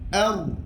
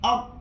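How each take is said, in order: First: The final r flows with a light trill. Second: The final r is cut off abruptly. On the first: The speaker calls it right. "Dia kena bunyikan sifat ra, yakni takrir" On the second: The speaker calls it wrong. "Jangan baca ak, ... terlalu tertahan"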